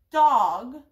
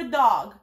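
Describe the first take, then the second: First: Dog said loud and deliberate, jaw dropping once; teacher modelling dog as one beat; slow syllable demo. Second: Said in the usual way. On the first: Shown as a demonstration. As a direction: drop the chin clearly on dog for a child. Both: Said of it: "pay attention to how many times their chin goes".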